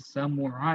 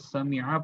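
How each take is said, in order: First: The middle vowel is u. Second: The middle vowel is i. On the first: The speaker calls it wrong. "समुआ नहीं पढ़ते हैं" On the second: The speaker calls it right. "अरब वाले इस फेल को समिआ पढ़ते हैं"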